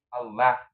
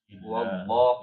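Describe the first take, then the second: First: The l is thin and light. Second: The l is thick and heavy. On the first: The speaker calls it wrong. "jadi enggak Allah ya" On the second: The speaker calls it right. "itu tebal"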